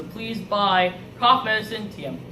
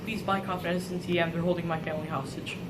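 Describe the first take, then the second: First: Halting, subdued pitch to buyers; reluctant sales plea. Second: Low, very soft begging; hushed desperate plea. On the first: Hostage spokesperson urging viewers to buy cough medicine, subdued plea. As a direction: make a dutiful, uneasy sales plea. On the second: Family held hostage, begging buyers, hushed and desperate. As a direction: beg under your breath, as if overheard. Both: Acted.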